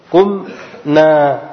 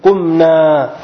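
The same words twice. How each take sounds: First: قمنا stretched slowly so each sound is heard; قمنا, slow and deliberate; slowly drawn out. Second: Said in the usual way. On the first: Shown as a demonstration. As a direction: draw out قمنا for the students. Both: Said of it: "مثل".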